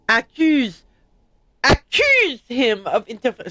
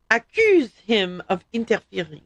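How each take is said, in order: First: Mock accent read that came out loud; accidental shout. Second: Said in the usual way. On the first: Shown as a demonstration. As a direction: accuse him of interfer- said louder than meant. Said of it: "I didn't mean to scream that". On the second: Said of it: "sorry, I didn't mean to scream that".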